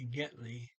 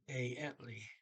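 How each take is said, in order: First: The word begins with a g sound. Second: The word begins without a g sound. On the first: The speaker calls it wrong. "I understood uh, Getli" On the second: The speaker calls it right. "they don't say the first G either"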